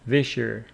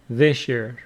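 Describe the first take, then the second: First: The words blend with an sh sound between them. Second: The words blend with an sh sound between them.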